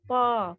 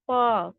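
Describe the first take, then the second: Both takes have the same delivery.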